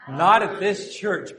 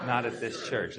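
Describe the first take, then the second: First: Loud, slow, higher group-leading call; emphatic rallying call. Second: Said in the usual way. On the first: Shown as a demonstration. Pastor leading congregation to say it once more, emphatic. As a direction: lead the crowd firmly, stretching each word.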